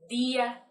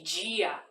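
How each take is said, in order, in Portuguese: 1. Começa com um d forte e simples. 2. Começa com um som suave de dj. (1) "igual aquele povo lá da roça, aquele povo do interior que fala" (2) "não existe"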